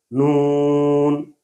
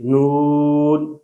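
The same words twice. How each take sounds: First: نون drawn out with a nasal oo; nasalized vowel. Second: Said in the usual way. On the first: Shown as a demonstration. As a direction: send all of نون through the nose. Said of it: "اس میں ناک میں آواز چلی گئی". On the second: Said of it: "پہلے والا ٹھیک ہے".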